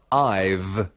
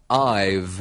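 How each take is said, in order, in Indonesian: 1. Kedua kata disambung menjadi satu suku kata. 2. Kedua kata disambung menjadi satu suku kata.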